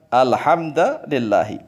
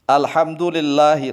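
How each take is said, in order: First: The d takes a and the l takes i. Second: The d takes u and the l takes i. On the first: "Dalnya di fathah berarti dibaca alhamdulillahi" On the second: "dalnya dhammah, lamnya kasroh"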